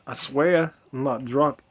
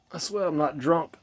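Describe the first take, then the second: First: Slower tipsy insistence. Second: Slightly tipsy speech. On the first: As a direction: drag it out with a buzz. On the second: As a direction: talk with a mild buzz. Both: Real, not acted. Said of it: "I'm tipsy".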